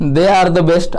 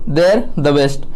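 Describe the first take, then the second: First: They are is said as two full words. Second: They are is contracted into one syllable.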